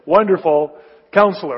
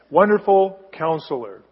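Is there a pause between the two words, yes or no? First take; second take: yes; no. First: There is a pause between the two words. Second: The two words run together without a pause.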